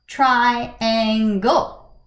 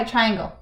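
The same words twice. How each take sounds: First: "Triangle" in three separate beats, tri-an-gle; drawn-out "Triangle", each syllable set apart. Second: Said in the usual way. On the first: Shown as a demonstration. Teacher testing shapes for three syllables, "Triangle" broken in three. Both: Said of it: "Let's count the syllables".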